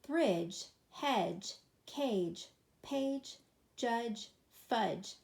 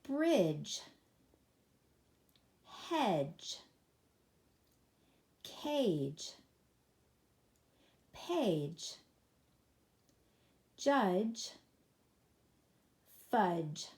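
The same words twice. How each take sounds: First: The words are read at the fastest pace. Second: The words are read at a normal pace. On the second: "let's read these together"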